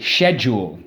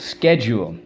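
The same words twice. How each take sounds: First: It is said with a British pronunciation. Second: It is said with an American pronunciation.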